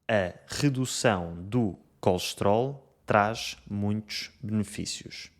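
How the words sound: Unstressed vowels are compressed or dropped entirely. "E em Portugal"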